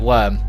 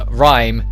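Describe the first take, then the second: First: The word is said with the vowel of 'worm'. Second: The word is said with the vowel of 'rhyme'. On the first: This is the traditional English reading. "traditional English calls it" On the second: This is the simplified English reading. "Simplistic English calls it"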